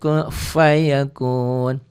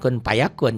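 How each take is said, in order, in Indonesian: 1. Kata kedua diawali dengan bunyi f. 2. Kata kedua diawali dengan bunyi p.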